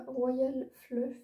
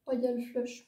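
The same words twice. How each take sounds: First: Fluff ending in an f sound; mistaken name. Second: Flush ending in a sh sound; corrected name. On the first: Vlogger misreading a palette's name, Fluff ending in f. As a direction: say "Fluff" with a final f. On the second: Vlogger correcting the palette's name, Flush ending in sh. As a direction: say "Flush" slowly with a final sh. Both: Real, not acted. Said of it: "Royal Flush plutôt".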